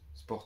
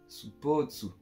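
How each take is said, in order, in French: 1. Ça se prononce en une seule syllabe française. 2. Ça se prononce avec des voyelles japonaises ajoutées. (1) "inspiré de sport" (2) "ça se dit sport mais euh, à la japonaise quoi"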